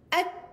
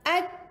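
First: The final k is released with only breath. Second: The final k is released with only breath.

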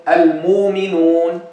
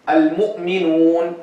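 No difference in how they are said.

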